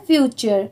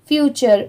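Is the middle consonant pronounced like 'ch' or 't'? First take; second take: ch; ch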